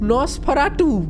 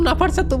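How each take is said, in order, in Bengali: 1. নামটা 'nos' দিয়ে শুরু, যেমন Nosferatu। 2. নামটা 'na' দিয়ে শুরু, যেমন Nafarsatu। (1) "এই লোকটার নাম নস ফারাটু" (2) "আমি নাফার সাতু নাফার সাতু বলছি ভাই, আমিও নুব হয়ে গেছি"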